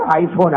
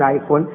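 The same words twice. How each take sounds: First: آئی فون said low and mocking, flat at the end; mocking iPhone. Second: آئی فون said lower still, with a mocking rise at the end; mocking iPhone, rising. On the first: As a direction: sneer the word آئی فون like a show-off's brag. (طنزیہ انداز میں آئی فون) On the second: (طنزیہ سوالیہ آئی فون) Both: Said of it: "آئی فون تو نا".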